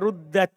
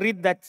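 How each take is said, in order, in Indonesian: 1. Vokal pertama adalah bunyi 'oo'. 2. Vokal pertama adalah bunyi 'ee'. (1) "Asalnya ruddat di domma. Itu yang paling kuat" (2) "Malah dibaca dengan riddat, itu yang paling lemah"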